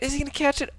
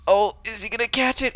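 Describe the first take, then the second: First: Much higher, tense repeat; more excited. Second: Excited. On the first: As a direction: push the question up in suspense. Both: Real, not acted. Caster watching a chase.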